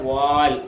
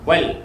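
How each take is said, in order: First: The vowel is drawn out long. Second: The vowel is kept short. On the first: The speaker calls it wrong. "നീട്ടി വായിച്ചേക്കാം. എങ്ങനെ? വാൽ. വാൽ എന്നല്ല" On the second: The speaker calls it right. "പിന്നെ എങ്ങനെ? ... വൽ"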